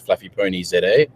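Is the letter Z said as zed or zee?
zed. The letter Z is said as zed.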